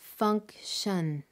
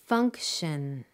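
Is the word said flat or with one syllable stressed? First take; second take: flat; stressed. First: Both syllables are said flat and evenly, robot-like. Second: One syllable is said higher, louder and longer. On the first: The stress pattern is kept hidden. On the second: The stress pattern is revealed.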